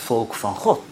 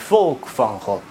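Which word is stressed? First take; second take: God; volk. First: The stress falls on the last word. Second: The stress falls on the first word. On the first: It stresses that the people belong to God. The speaker calls it right. "het accent ligt op het laatste woord" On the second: It sounds lofty and massive, as if about the people. The speaker calls it wrong. "als wij de nadruk laten vallen op het eerste woordje"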